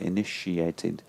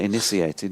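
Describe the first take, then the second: First: The middle consonant is an sh sound. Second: The middle consonant is an s sound. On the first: The speaker calls it right. "You say initiated" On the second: The speaker calls it wrong. "initiated doesn't. You don't say initiated"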